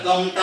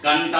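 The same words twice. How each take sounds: First: "గంట" wrongly said with an M before the ట; wrong M sound. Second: "గంట" with a clear N before the ట; correct N sound. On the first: Teacher showing pupils what not to say, "గంట" with an M sound. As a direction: say "గంట" as gam-ta, M in place of N. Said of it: "గంట అని చెప్పకూడదు". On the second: Teacher modelling the right reading for pupils, "గంట" with an N sound. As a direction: say "గంట" as gan-ta, N rather than M. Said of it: "గంట అని పలకాలి". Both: Shown as a demonstration.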